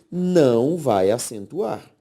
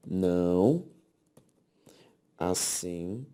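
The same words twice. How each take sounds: First: "não" drawn out and punched louder; stress on NÃO. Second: "Não" low and alone, then "acentuar" softly broken into syllables; long pauses after "Não" and inside "acentuar"; slow, separated repeat. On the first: Teacher drives home the rule for the class, stressing "não". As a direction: lean hard on "não" before finishing the rule. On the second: Teacher repeats the rule for the class, slowly in pieces. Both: Shown as a demonstration.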